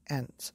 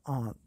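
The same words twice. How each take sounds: First: It is said with an American accent. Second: It is said with a British accent.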